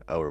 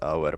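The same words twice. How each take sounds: First: The name is said like English 'hour'. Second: The name is said with Finnish vowel sounds. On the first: This is an acceptable approximation. "but like Auer works" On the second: This is the name's original pronunciation. "the correct pronunciation is Auer"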